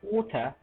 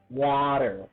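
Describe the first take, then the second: First: It is said with a British accent, ending in ta. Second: It is said with an American accent, ending in er. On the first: "But in British accent, they might say different. They say water" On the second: "In American accent, they say water"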